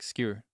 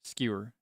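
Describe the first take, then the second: First: The word is said with one syllable. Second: The same.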